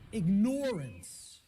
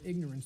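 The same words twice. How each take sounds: First: It is said so 'ignore' is clearly heard. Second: It is said the usual way, hiding 'ignore'. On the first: "start pronouncing it ignorance. ... people will hear the word ignore in it" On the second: "the impact of the word is almost lost to us ... because of the way it's pronounced"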